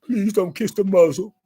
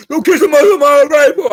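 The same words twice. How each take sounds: First: Said in the usual way. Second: "Don't kiss the muzzle" shouted much louder, pitch up, stress on "muzzle"; loud pleading yell on the repeat; louder plea. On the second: Retold or imitated. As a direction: burst out with the repeat. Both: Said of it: "I was begging him".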